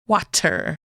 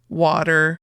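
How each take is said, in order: First: The middle consonant is a crisp T. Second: The middle consonant sounds like a D. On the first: "they hit that T sound" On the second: "we say it more like a D"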